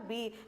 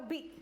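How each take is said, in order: First: The vowel is held long. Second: The vowel is kept short. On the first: "अगर बड़ी की मात्रा बा पे लगा देते तो होता बी" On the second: "छोटी की मात्रा लगाकर क्या होगा बी"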